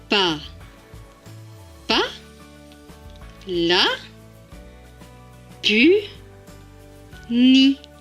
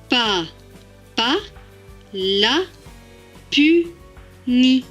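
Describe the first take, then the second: First: The syllables are read slowly and gently. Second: The syllables are read more quickly. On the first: "On va relire ces deux phrases tout doucement" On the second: "Maintenant, plus rapidement"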